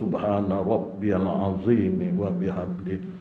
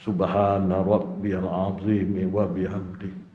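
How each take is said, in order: No difference in how they are said.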